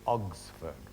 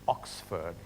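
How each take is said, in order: First: The consonant before the S sounds like G. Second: The consonant before the S sounds like K. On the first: "he would say Ogsford with, with a G" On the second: "instead of saying Oxford"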